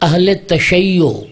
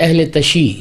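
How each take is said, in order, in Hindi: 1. दूसरे शब्द में दोहरा -yy- है और अंत में -o है। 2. दूसरा शब्द छोटा है, -shi पर खत्म होता है। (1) "अहले तशी नहीं होता" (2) "अक्सर लोग गलत बोलते हैं"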